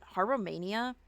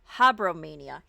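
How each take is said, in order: First: The name is said with 'harrow' at the start. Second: The name is said with 'habro' at the start. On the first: The speaker calls it wrong. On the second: The speaker calls it right.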